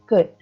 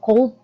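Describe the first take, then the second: First: The word is said without an L sound. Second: The word is said with an L sound. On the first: The speaker calls it right. "jangan dibaca L-nya ya, tapi bacanya could" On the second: The speaker calls it wrong. "It's not cold"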